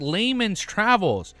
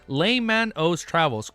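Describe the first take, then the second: First: The name is said as 'Layman's', two syllables. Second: The name has an added 'o' sound, three syllables. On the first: The speaker calls it wrong. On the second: The speaker calls it right.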